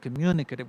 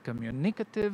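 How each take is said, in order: First: The stress is on the second syllable. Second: The stress is not on the second syllable. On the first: The speaker calls it right. "with the stress on the second syllable" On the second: The speaker calls it wrong. "I said communicative"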